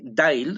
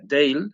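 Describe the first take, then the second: First: The name is said differently from 'Dale'. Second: The name is said like 'Dale'. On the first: This is the company's own pronunciation. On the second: This is how people commonly say it.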